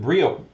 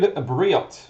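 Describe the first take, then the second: First: The name ends on a vowel, no T. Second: The name ends with an audible T sound. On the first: The speaker calls it right. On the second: The speaker calls it wrong.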